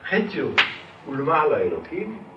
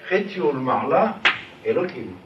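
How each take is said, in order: First: The pause comes after the first word. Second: The pause comes after the second word.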